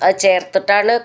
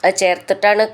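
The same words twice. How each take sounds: The two takes are said the same way.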